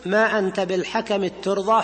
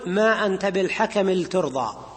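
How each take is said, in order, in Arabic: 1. تندمج اللام في صوت تاء مشددة. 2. تُنطق اللام منفصلة قبل التاء. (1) "الأول الإدغام، إدغام التاء" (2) "والوجه الثاني فك الإدغام"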